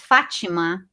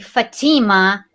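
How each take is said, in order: First: The name is said with a Brazilian pronunciation. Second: The name is said with an American pronunciation. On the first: "in Brazil, you pronounce my name is" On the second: "In America, they pronounce my name"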